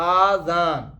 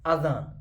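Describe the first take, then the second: First: The first vowel is drawn out long. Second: The first vowel is kept short. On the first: It means ears. The speaker calls it wrong. "अलिफ मद्दा लागोस गड आजान" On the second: It means the call to prayer. The speaker calls it right. "सही लफ्ज अजान"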